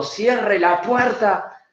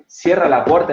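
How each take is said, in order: First: High, slow beastly order; animal growl. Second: Said in the usual way. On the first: Shown as a demonstration. Coach shows the angry body version, high and slow. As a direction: let the animal out and roar it slowly. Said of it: "le va a salir un animal de adentro". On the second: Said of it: "en forma tranquila".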